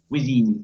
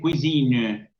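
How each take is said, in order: First: The word ends cleanly on the n sound. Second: A faint vowel is heard after the final n. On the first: The word is used in ordinary connected speech. "no se escucha esa E... Cuisine, hasta la N nomás" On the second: The word is being cited or dictated on its own. "cuando yo exagero un poco esa palabra, puedo llegar a decir cuisine... y dejo entrever esa E"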